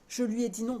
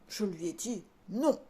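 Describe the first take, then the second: First: The word "non" is said plainly, without emphasis. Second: The word "non" is said with strong emphasis. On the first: The speaker calls it right. "Il a juste dit non" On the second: The speaker calls it wrong. "je le fais mal parce qu'il n'y a pas d'intonation"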